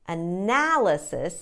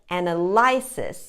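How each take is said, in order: First: The stress falls on the second syllable. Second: The stress falls on a syllable other than the second. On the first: The speaker calls it right. "put the stress on the second syllable" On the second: The speaker calls it wrong. "students make the mistake of saying something like"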